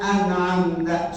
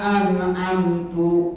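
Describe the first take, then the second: First: The word ends with an 'a' vowel. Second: The word ends with a 'u' vowel. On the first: God gave the blessing. The speaker calls it right. "Beda tu sama tak" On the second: The reciter gave the blessing. The speaker calls it wrong. "Kalau kita bacanya"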